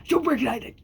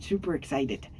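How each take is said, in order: First: Higher, squeaky put-on voice; squeaky silly voice. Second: Said in the usual way. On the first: Shown as a demonstration. Vlogger showing off a silly voice to viewers, high squeak. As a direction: pop it up into a cartoonish squeak. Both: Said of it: "yes, that's my voice".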